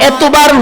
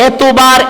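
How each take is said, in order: The two takes are said the same way.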